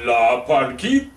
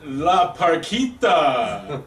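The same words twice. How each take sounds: First: Slower, louder announcer call; ring announcer. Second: Plain; ring announcer. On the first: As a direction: stretch it out like a luchador announcer. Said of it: "hold it like the luchador announcer". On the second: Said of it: "let me have this one". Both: Acted.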